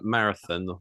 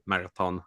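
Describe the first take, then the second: First: It is pronounced the usual English way. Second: It is pronounced the Macedonian way.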